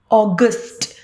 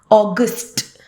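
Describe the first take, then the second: The two takes are said the same way.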